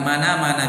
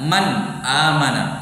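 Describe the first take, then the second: First: The words run together without a glottal stop. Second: A glottal stop separates man and amana. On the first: "Kadang dihilangkan, langsung dikatakan"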